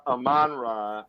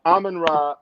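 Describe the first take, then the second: First: "Amon-Ra" as uh-MON-rah, second syllable stressed; usual pronunciation. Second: "Amon-Ra" as AH-men-rah, first syllable stressed; alternative pronunciation. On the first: Co-host not caring which version is used, second-syllable pronunciation. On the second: Co-host not caring which version is used, first-syllable pronunciation. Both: Shown as a demonstration. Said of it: "I don't care how we say it".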